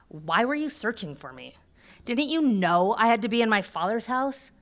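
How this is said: It is said with sassy, mocking spice.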